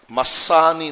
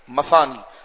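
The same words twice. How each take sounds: First: The middle consonant is a plain 's' sound. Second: The middle consonant is a 'th' sound. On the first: The speaker calls it wrong. "یہ سین کے ساتھ نہیں" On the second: The speaker calls it right. "مثانی نہیں مثانی"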